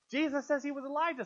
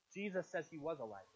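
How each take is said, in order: First: Higher and louder, pressing the point; emphatic repeat. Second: Lower, softer, falling away at the end; understated. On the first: Preacher pressing the contradiction on listeners, emphatic and raised. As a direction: hit it hard to expose the contradiction. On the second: Preacher quietly setting up another problem for listeners, understated. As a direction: drop the voice to set up the puzzle. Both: Real, not acted.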